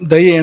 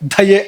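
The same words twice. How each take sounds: First: The first consonant is said without a breath. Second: The first consonant is said with a strong breath. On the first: The speaker calls it right. "ಅದನ್ನ ಹಾಗೆ ಹೇಳೋಕ್ಕಿರೋಂಥದ್ದು" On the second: The speaker calls it wrong. "ಹೇಳಬಾರ್ದು"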